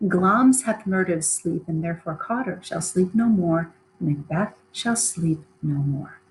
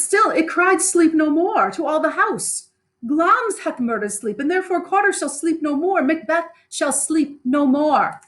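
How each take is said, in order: First: An eerie voice inside Macbeth's mind; voices in his head. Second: High, rising, slowing on the last line; haunted Macbeth. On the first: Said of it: "the voices say". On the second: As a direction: Macbeth repeating the voice that cursed him. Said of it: "And he says". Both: Acted.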